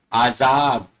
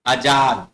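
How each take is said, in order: First: आजाद with long opening aa and z; correct pronunciation. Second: आजाद with short first vowel and a j sound; wrong pronunciation. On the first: Teacher shows pupils the correct आजाद, said "aa-zaad". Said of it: "ये होता है आजाद". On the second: Teacher shows pupils the mistaken आजाद, said "a-jaad". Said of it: "ये आजाद नहीं होता". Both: Shown as a demonstration.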